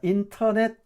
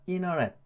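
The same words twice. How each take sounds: First: The t after the n is clearly pronounced. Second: The t after the n is silent. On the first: "이렇게 읽기도 하지만" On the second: "이렇게 돼요"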